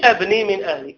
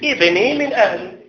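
First: The first word begins with an 'a' vowel. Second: The first word begins with an 'i' vowel. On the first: It means I build, changing the sense. The speaker calls it wrong. "ما تقولش أبني من أهلي، أبني أبني ماذا تبني؟" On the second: It means my son is of my family. The speaker calls it right. "لو قال لك الشيخ ابدأ من كلمة ابن كيف تقول؟"

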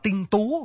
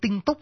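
First: The second word ends without a k sound. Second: The second word ends with a k sound. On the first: The speaker calls it right. "bỏ chữ C ở chót đi, đọc là tinh tú" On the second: The speaker calls it wrong. "tinh túc đọc hơi khó đọc"

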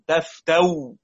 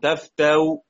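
First: The final hamza becomes a w sound. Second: The final hamza is softened with a faint vowel. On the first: "أو إبدال بالواو على الرسم" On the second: "أو تسهيل براوم"

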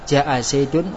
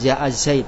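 First: The name ends with an added -un sound. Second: The name ends abruptly on a bare d. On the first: The reading continues on to the next word. "Zaid kita baca wasal, maka kita baca ja'a Zaidun wa Amr" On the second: The reading stops at this word. "Kalau kita mengucap waqaf pada Zaid, berarti kita katakan ja'a Zaid. Zaid ini dibaca waqaf"

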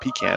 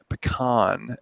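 First: Pecan is said the Northern US way. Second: Pecan is said the Southern US way.

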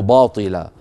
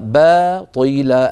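First: The first b sound is heavy and thick. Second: The first b sound is light and thin. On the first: The speaker calls it wrong. "ولا نقول باطلا" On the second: The speaker calls it right. "الباء مرققة والطاء مفخمة"

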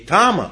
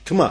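First: A full vowel is heard between t and m. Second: No vowel is heard between t and m. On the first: The speaker calls it wrong. "Не тама" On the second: The speaker calls it right. "а тьма, потому что а там нету"

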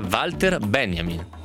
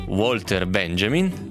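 First: The name is pronounced the German way. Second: The name is pronounced in a non-German way. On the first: The speaker calls it right. "si dice Walter Benjamin" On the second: The speaker calls it wrong. "non si dice Walter Benjamin"

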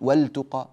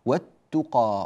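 First: The L sound is clearly pronounced before the T. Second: The L sound merges into a doubled T sound. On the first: The speaker calls it wrong. "مش بنقول والتقى" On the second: The speaker calls it right. "فتدغم"

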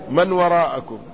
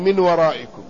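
First: The first word is said with an 'a' vowel. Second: The first word is said with an 'i' vowel. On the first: It means those who are behind you. "والثاني بفتحها" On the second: It means from behind you, as a preposition. "الأول بكسر الميم"

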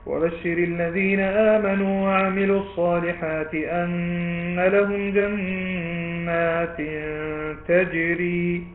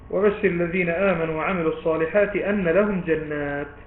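First: The recitation stops right after the word 'tajri'. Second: The recitation stops right after the word 'jannat'. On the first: The gardens themselves seem to flow. The speaker calls it wrong. "خطأ ووقف قبيح مثل هذا الوقف الذي سأقفه الآن للتعليم فقط" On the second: The rivers flow beneath the gardens. The speaker calls it right. "فإنك تقف عند إيه؟ ... ثم تبدأ: جنات تجري من تحتها الأنهار، هكذا"

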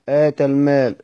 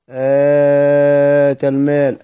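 First: The opening vowel is held short. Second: The opening vowel is drawn out long. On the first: It states a fact. "آتى المال خبرية" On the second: It asks a question. "هتفيد الاستخبار يعني الاستفهام"

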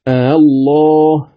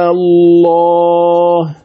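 First: The second hamza is softened, between hamza and vowel. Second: The second hamza becomes a long vowel, six counts. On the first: "فتقرأ بالتسهيل" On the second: "أمدها بمقدار 6 حركات"

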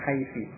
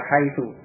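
First: The word ends with an i vowel. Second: The word ends with an u vowel. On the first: Other Arabs read the word this way. "menjadikan mabni dengan kasrah, membacanya dengan haiti" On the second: This is the standard reading of the word. "dibaca haitu tetap dengan dhommah"

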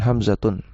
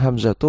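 First: The word ends with an added n sound. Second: The word ends on a vowel without n. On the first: The speaker calls it wrong. "bukan Hamzatun" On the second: The speaker calls it right. "cara bacanya Hamzatu"

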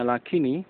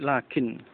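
First: The word ends with an added short i vowel. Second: The word ends on a bare n consonant. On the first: The speaker calls it wrong. "Jadi bukan lafadznya lakini, bukan" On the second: The speaker calls it right. "tetapi lakin dengan sukun"

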